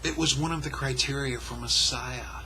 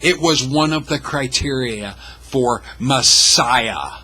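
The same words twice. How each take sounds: First: It is said at normal pace and volume. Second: It is said slower and louder.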